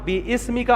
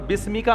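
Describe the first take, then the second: First: The 'bi' is followed by a separate 'is' syllable. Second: The 'bi' runs straight into 'smika' without a vowel. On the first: The speaker calls it wrong. "ये ग्रामर के लिहाज से इतनी बड़ी गलती है" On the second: The speaker calls it right. "एक हदीस में आते अल्लाहुम्मा बिस्मी का"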